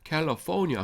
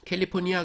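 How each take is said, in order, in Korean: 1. 끝 쪽에 강세가 있어요. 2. 끝 쪽에 강세가 없어요. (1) "악센트가 뒤에 있습니다" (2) "캘리포니아 그러지 마세요"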